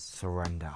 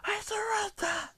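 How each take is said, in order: First: Said in the usual way. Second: Very high, strained squeal; squealed plea for mercy; mock desperate shout. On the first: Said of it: "Then he says". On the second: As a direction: cry surrender in a drawn-out falsetto. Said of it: "Sludge shouts".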